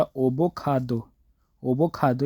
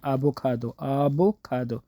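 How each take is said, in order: First: ओबोकाडो read as written with an O; wrong spelling-pronunciation. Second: आबोकाडो with an open A, slowly; correct Korean pronunciation. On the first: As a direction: show the wrong reading ओबोकाडो. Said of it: "इस तरह नहीं". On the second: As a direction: model the right आबोकाडो carefully. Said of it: "ये आवोकाडो कहते हैं". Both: Shown as a demonstration.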